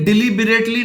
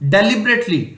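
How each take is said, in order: First: The first syllable has a long "dee" vowel. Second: The first syllable has a short "deh" vowel. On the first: The speaker calls it wrong. "ये डिलीबरेटली नहीं है" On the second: The speaker calls it right. "ये डेली है, बिरेटली एक साथ तेजी से बोला जाएगा"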